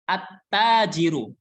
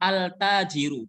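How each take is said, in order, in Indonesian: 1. L tidak terdengar dan huruf t dibaca ganda. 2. Bunyi L terucap dengan jelas sebelum t. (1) "tapi at-tajiru" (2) "Bacanya bukan al-tajiru"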